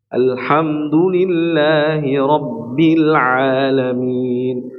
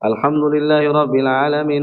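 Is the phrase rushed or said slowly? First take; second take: slowly; rushed. First: It is said slowly with each letter articulated. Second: It is rushed through quickly in one breath. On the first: The speaker calls it right. "Tapi kalau kita tajwid enggak bisa, susah" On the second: The speaker calls it wrong. "satu satu nafas"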